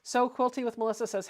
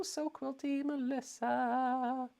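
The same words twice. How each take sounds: First: Said in the usual way. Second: Slow, soft and higher, name stretched out; drawn-out singsong greeting. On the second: Shown as a demonstration. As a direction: sing the name out slowly.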